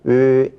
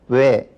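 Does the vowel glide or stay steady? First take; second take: steady; glide. First: The vowel keeps one steady mouth shape. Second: The vowel glides from one mouth shape to another. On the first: "외를 단모음으로 발음하면 으 이렇게" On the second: "이중모음으로 발음한다는 거예요"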